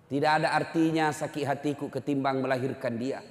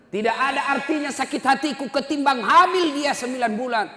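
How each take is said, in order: First: Said in the usual way. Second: Much louder and higher pleading cry; anguished cry. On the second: Retold or imitated. Mother cries out to the Prophet about her pregnancy, loud and high. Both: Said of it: "ibunya berteriak".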